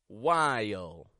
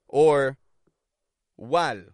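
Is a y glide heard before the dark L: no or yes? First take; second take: yes; no. First: A y glide links the vowel to the L. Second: The vowel runs straight into the L without glide. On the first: The speaker calls it right. "there's this y that connects the two" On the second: The speaker calls it wrong. "Notice I'm not going just feel, or while"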